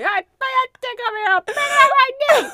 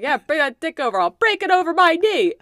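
First: High, fast, eerie far-off voice; haunt it from another room; ghostly voice. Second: Rising to a loud, high threat; tough-talking threat. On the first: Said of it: "my ghostly voice from within the home". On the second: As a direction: bark it like a brawler. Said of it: "my response was like". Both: Retold or imitated.

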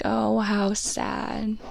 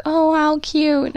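First: "Oh, how sad" dragged out very slowly and flat; mopey "Oh, how sad". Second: "Oh, how cute" higher, louder and slow, doting; gushing "Oh, how cute". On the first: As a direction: sigh out "Oh, how sad" at the photos. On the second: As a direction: coo "Oh, how cute" over the photos. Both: Retold or imitated. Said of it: "Now I have to be like".

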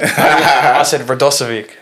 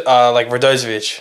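First: Radosovic with a hard s, the Aussie way; Radosovic, sharp s in the middle; Aussie pronunciation. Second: Radozovic with a z, the way his dad says it; family pronunciation. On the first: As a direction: say Radosovic like the Aussie kids did. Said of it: "That's how I used to say it". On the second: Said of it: "they'll say, like". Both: Retold or imitated.

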